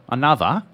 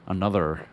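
First: It is said Australian-style, with no R. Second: It is said American-style, with a hard R.

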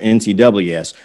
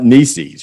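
First: It is spelled out letter by letter. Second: It is said as one single word. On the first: The speaker calls it right. "it's a bunch of letters" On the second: The speaker calls it wrong. "trying to make it a word"

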